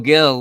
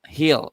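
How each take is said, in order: First: The name begins with a hard G sound. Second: The name begins with an H sound. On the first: The speaker calls it wrong. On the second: The speaker calls it right.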